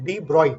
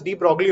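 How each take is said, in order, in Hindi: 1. नाम 'broy' पर खत्म होता है, इसमें g की आवाज़ नहीं है। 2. नाम 'broglee' पर खत्म होता है, इसमें g की आवाज़ है। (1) "इसको प्रोनाउंस करते हैं as डी ब्रॉय" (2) "I will be pronouncing it as de ब्रॉगली only"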